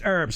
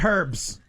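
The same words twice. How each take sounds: First: It is said the American way. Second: It is said the British way. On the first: The speaker calls it right. "it's pronounced herbs" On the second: The speaker calls it wrong. "not herbs. I realize we're getting to that time of the night that the Brits are starting to show up"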